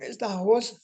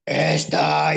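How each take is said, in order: First: "esta voz" in a high, pinched put-on voice; showing the odd high voice; high changed voice. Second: "Esta" in a big booming voice from the grave; booming original voice. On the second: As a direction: boom out "Esta" loud and hollow. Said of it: "me sacó un vocerón así, como de ultratumba". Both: Shown as a demonstration.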